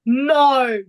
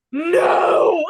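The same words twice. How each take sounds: First: Put-on loud "No" in an English accent; failed Australian impression, landing in an English accent. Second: Loud, higher mock-sarcastic "No!"; one drawn-out, exclaimed sarcastic denial; Oscar Piastri. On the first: Co-host retelling the driver's denial, loud English-accented "No". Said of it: "you said that in just, like, an English accent". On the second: Retelling the driver's cool down room answer, loud sarcastic impression. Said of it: "very sarcastic Oscar Piastri in the".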